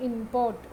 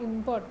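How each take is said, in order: First: Import stressed on the first part, IM-port; noun stress. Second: Import stressed on the second part, im-PORT; verb stress. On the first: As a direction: lean on IM in import. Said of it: "noun ആയിട്ട് ഉപയോഗിക്കുമ്പോൾ first പാർട്ടിലും". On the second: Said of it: "വെർബായിട്ട് ഉപയോഗിക്കുമ്പോൾ second പാർട്ടിലും". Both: Shown as a demonstration.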